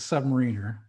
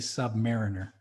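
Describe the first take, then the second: First: It sounds like one single whole word. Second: It sounds like 'sub' plus the word 'mariner'. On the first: A sailor who serves on submarines. The speaker calls it right. "It's it's a submariner" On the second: A sailor ranked below a mariner. The speaker calls it wrong. "there has to be a fine if you say submariner"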